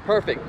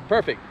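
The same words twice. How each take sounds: The two takes are said the same way.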